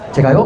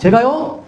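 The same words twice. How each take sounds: First: It is said flatly, without emotion. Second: It is said with feeling, expressively.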